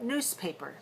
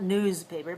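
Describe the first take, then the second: First: The s is a voiceless s sound. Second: The s is a voiced z sound. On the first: The speaker calls it right. "changes to voiceless is in the word newspaper" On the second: The speaker calls it wrong. "That one is not newspaper"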